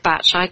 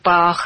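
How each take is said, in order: First: The name ends with a 'tch' sound. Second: The name ends with a 'k'-like sound. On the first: "some people say Batch" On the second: "some people say Bach"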